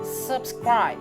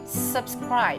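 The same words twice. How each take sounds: No difference in how they are said.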